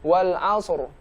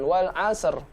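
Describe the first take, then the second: First: The r sound is heavy and thick. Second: The r sound is light and thin. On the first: The speaker calls it right. "Dibaca ro-nya dalam kondisi tebal" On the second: The speaker calls it wrong.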